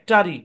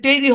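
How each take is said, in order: First: The vowel is a light, reduced schwa sound. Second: The vowel is a full, clear 'e' sound. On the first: The speaker calls it right. "এখানে সোয়া sound apply হয়েছে" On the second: The speaker calls it wrong. "এখানে টেরি হবে না"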